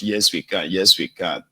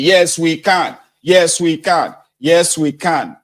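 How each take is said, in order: First: Said in the usual way. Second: High, loud chanted slogan; crowd shouting. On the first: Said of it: "People will just shout". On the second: Retold or imitated. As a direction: chant it back like a roaring crowd. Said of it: "And everybody will be shouting".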